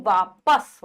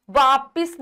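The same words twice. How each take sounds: First: वापस as 'vaa-pas', lower; correct a vowel. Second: वापिस as 'vaa-pis'; wrong 'pis' ending in वापिस; mispronounced with i. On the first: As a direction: say वापस with 'pas' at the end. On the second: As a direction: say वापिस with an i in the second syllable. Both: Shown as a demonstration. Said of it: "वापिस नहीं".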